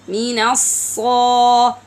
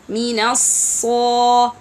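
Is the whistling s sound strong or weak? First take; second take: strong; strong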